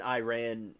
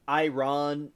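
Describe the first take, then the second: First: Iran said eye-RAN; second interchangeable way. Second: Iran said eye-RON; first interchangeable way. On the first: Listing both ways used, Iran as eye-RAN. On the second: Listing both ways used, Iran as eye-RON. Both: Shown as a demonstration.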